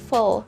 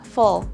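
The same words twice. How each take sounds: First: The last syllable has a reduced schwa vowel. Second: The same.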